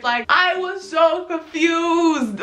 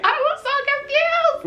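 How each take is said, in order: First: "so confused" stretched out slowly, pitched high; slow, raised wail on "so confused"; emphatic bewilderment. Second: Very high squeal on "I was so confused"; hammed-up, sky-high bewildered repeat; squealed bewilderment. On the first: Retold or imitated. Retells confusion, says it twice. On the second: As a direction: push "confused" up into a thin squeal.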